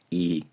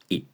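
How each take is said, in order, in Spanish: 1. La vocal es larga y alargada. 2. La vocal es muy corta y seca. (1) "no es I" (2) "suena mucho más breve a la hora de decirlo. Es I"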